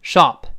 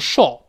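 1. 它读的是更宽、更开口的美式元音。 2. 它读的是英式元音。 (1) "美英口型大一些 读成shop" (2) "英国人读成shop"

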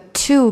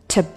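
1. 'to' 中的元音是完整且圆唇的。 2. 'to' 中的元音短促且弱化。

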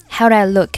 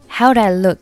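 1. "do I"这两个词很弱，读得弱化。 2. "do I"这两个词很弱，读得弱化。

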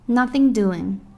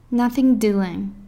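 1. 音被缩短并连读在一起。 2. 音被缩短并连读在一起。

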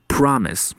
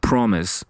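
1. 第一个元音是张口的 'ah' 音。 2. 第一个元音是圆唇的 'o' 音。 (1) "在美式英语中我们把它读成promise" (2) "英式读法是读成promise"

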